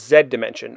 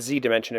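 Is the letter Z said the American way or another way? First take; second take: another way; American. First: The letter Z is said the non-American way. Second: The letter Z is said the American way.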